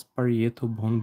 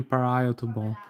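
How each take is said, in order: First: "parietal" said as pah-ree-EH-tal, with an EE-EH middle; habitual mispronunciation. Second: "parietal" said as puh-RYE-uh-tal, with an EYE vowel; corrected pronunciation. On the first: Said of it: "I usually pronounce". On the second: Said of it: "it's actually parietal bone". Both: Shown as a demonstration.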